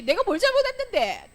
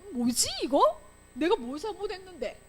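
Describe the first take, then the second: First: High, loud defiant comeback; talking back. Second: High, puzzled self-questioning; bewildered protest. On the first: Teacher shows a punished child talking back, acted defiance. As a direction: act a child answering back indignantly. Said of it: "대들지". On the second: Teacher voices a child unfairly punished, acted bewilderment. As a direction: wonder aloud what you did. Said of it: "이렇게 되는 거야". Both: Acted.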